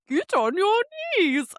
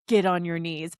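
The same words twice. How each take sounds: First: It is said in a mock Swedish Chef voice. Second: It is said in a normal reading voice.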